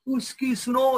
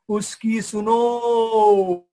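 First: Said in the usual way. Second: Very slow, booming, drawn-out command; voice from heaven. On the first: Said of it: "Akashvani हो गई". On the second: Acted. A voice from the sky tells the leaders to listen, slow and booming. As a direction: boom it down from the sky like God speaking. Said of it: "आसमान से एक आवाज आया".

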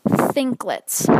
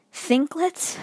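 First: Thinklets said slowly and fully, falling; Thinklets said again. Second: Thinklets rising, higher, questioning; puzzled Thinklets. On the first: Repeating the word Thinklets for viewers from another school. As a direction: spell out Thinklets for outsiders. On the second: Student baffled by the assignment name Thinklets. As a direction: ask Thinklets in disbelief. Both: Shown as a demonstration. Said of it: "Let me just say that again".

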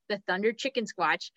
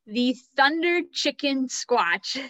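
First: Said in the usual way. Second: Breaking into laughter on the name; laughing. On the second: Real, not acted. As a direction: laugh through the silly name, slowed. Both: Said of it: "I can't say that name without laughing".

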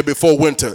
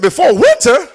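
First: Said in the usual way. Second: High, louder questioning of BEFORE WINTER; shocked, high-pitched "Before winter?"; incredulous echo. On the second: Retold or imitated. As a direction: throw "Before winter?" back in disbelief. Incredulous echo of prophet's deadline.

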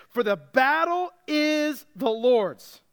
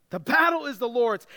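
First: "the battle is the Lord's" drawn out slowly, word by word; slow, weighty proclamation of "the battle is the Lord's"; emphatic slow declaration. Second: Said in the usual way. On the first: Real, not acted. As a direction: stretch "battle is" for weight, then land "the Lord's". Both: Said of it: "Get this".

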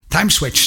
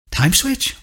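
First: Curt, raised, higher answer with a falling close; snapped. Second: "Time switch?" much higher with a rising question on "switch"; puzzled echo. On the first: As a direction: bite off "Time switch" with a hard fall on "Time". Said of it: "snapped Clyde". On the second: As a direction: echo the words back in disbelief. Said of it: "Bonnie echoed". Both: A narrator's reading.

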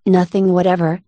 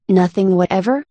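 First: Said in the usual way. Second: "Nothing whatever" asked with a final rise; insistent question. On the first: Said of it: "said Alice". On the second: A narrator's reading. The king pressing Alice, "Nothing whatever" as a rising question. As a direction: lift the end of "whatever" as a question. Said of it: "persisted the king".

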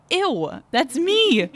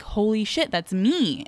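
First: High, louder mock revulsion; squealed, exaggerated disgust; retold disgust. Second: Mildly stunned retold reaction; understated mock shock; retold shocked realization. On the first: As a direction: act out being grossed out, pitch jumping way up. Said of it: "I was disgusted by her". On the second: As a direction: act out a small jolt of recognition. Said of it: "but I'm like".

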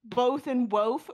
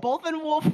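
First: WOLF said as woath to match BOTH; slower, both and wolf with the same long oh; wolf rhymed with both. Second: WOLF with a short oo and an L, unlike BOTH; both with long oh, wolf with short oo; usual wolf vowel. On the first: Mocking friend's rhyme argument, WOLF given the oh of BOTH. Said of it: "so you can't both and wolf rhyme". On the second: Questioning whether they rhyme, WOLF in its usual short-oo form. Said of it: "Both and wolf rhyme?". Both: Shown as a demonstration.

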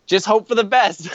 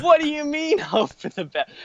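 First: Lightly imitated carefree older friend; mock-breezy reassurance, pitched higher; Dave. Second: High-pitched, laughing disbelief; acted-out incredulity, starting very high; incredulous retort. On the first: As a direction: toss it off as an unworried old guide. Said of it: "everything he says is relaxed". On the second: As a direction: squeal the question back in mock outrage. Throws friend's advice back, incredulous.

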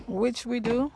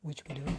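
First: Loud, higher restatement; emphatic admission. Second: Low, soft aside; subdued admission. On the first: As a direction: say it back louder, lifting the end. Repeats the line for emphasis. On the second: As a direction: say it quietly, almost to yourself. Repeats the line in contrasting ways. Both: Real, not acted.

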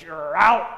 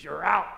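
First: Much louder umpire bark; umpire call. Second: Put-on louder old-style out call; preacher recalling the old umpire call; fifties umpire call. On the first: Acted. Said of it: "the umpire says". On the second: Shown as a demonstration. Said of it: "That's how they did it in the fifties".

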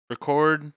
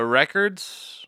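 First: Record, stress on CORD, re-CORD; verb record. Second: Records, stress on REC, short e; noun record. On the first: Two hosts sorting out the podcast theme, say it as a verb. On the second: Two hosts sorting out the podcast theme, say it as a noun. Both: Shown as a demonstration. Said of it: "Are we doing record or record?".

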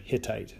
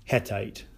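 First: Hittite with "hit" as first syllable; usual pronunciation. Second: Hettite with "het" as first syllable; variant pronunciation. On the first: Lecturer giving the familiar name, Hittite said HIT-ite. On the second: Lecturer showing a variant name, Hettite said HET-ite. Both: Shown as a demonstration. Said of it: "depending on how you pronounce it".

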